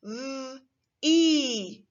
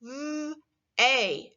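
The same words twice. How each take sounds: First: V-e sounded out letter by letter; mock wrong guess; wrong blend. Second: V-a said as they, long a; correct sounds. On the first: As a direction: blend v-e the wrong way, as a beginner would. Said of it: "You might have said ... not right". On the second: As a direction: say v-a rhyming with day. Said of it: "This word is actually pronounced". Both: Shown as a demonstration.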